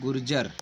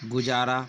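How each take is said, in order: First: An r sound comes before the j. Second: There is no r sound before the j. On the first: The speaker calls it right. "इसका नाम है गुर्जर" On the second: The speaker calls it wrong. "गुजारा नाम नहीं है"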